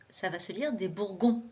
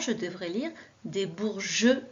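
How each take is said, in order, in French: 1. Le g est dur, comme dans go. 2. Le g est doux, comme le son du j. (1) "Si je ne mets pas le E" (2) "on a rajouté le E pour faire le son J"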